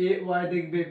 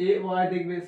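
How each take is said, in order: Both takes have the same delivery.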